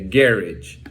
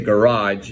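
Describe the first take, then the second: First: The word is said with a British pronunciation. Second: The word is said with an American pronunciation. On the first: "the British say garage" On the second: "Americans would say garage"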